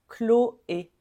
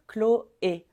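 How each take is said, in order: The two takes are said the same way.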